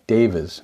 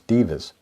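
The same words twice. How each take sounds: First: The word sounds like devas. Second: The word sounds like divas. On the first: The speaker calls it right. "It's D E V A" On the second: The speaker calls it wrong. "I mispronounced it. ... not D I V A"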